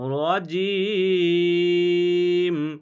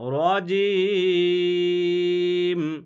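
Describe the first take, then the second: First: The word ends on a bare m sound. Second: The same.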